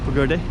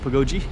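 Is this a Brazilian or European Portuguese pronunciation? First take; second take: European Portuguese; Brazilian. First: It is said with a European Portuguese pronunciation. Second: It is said with a Brazilian Portuguese pronunciation. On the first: "If it's Portuguese, maybe pagoda, pagode" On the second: "If it's like Brazil, it may be pagoji"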